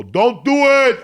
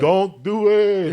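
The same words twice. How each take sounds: First: Loud, high, urgent yell of don't do it; warning shout. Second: Slow, loud, high and dragged-out don't do it; drawn-out warning. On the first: Cook yells a warning at the inmates. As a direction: shout it to stop them cold. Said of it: "I'd go". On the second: Cook walks in and gives the inmates a slow warning. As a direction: stretch each word out like a knowing signal. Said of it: "I would go in there". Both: Retold or imitated.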